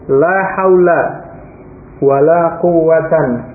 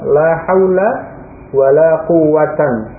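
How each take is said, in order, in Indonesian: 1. Kata terakhir diakhiri dengan bunyi n. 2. Kata terakhir diakhiri dengan bunyi n.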